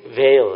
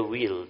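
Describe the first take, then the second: First: "Veil" with a v and an ay vowel; "Veil", higher and emphatic, starting on v; corrected pronunciation. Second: "wheel" with a w and a long ee; "wheel", rhyming with feel; mispronounced veil. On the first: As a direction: say "Veil" loudly, rhyming with sail. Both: Shown as a demonstration. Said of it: "how you pronounce V E I L".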